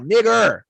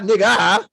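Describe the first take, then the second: First: The word ends with a clear 'er' sound. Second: The word ends with an open 'a' sound. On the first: It is the harsher, more offensive form. "He was saying E R" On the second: It is the casual form used among friends.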